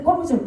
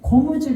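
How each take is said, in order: First: The first consonant is tense. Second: The first consonant is plain. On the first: It is said in a regional dialect. The speaker calls it wrong. "무슨 전라도 사투리라고 그래요" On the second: It is said the standard way. The speaker calls it right. "고무줄 해야 맞지요"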